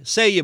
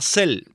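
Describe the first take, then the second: First: The word is said with a Spanish-style pronunciation. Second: The word is said with an English pronunciation. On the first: This is how people locally call it. "Pero le dicen SEIE" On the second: This is how it is said in English. "en inglés se pronuncia CEL"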